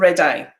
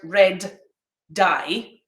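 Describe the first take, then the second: First: The words run together with no gap. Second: A short gap separates 'red' and 'dye'. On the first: The speaker calls it wrong. "when I speak quickly, I usually forget to do that delay" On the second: The speaker calls it right. "I've got to make a short pause here between this sound"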